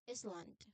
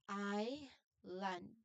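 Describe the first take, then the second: First: An S sound is pronounced in the middle. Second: No S sound is pronounced in the middle. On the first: The speaker calls it wrong. "We do not say Island or Iceland" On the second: The speaker calls it right. "it is a silent letter. The letter S is silent letter. So we say it as I land"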